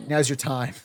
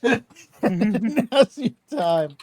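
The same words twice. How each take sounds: First: Said in the usual way. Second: Laughing repeat, drawn out. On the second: Real, not acted. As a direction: say it high and loud through laughter. Same words repeated through laughter.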